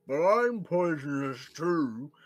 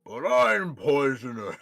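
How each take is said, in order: First: Slow, loud creature with mouth full; higher, drawn-out garbled creature voice. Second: Slow, loud frog voice; drawn-out creature voice with POISONOUS stretched; talking frog. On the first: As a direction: protest through a crammed mouth. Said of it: "tries to talk with its mouth full". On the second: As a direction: protest slowly as a big frog. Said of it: "you hear the frog say back". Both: Acted.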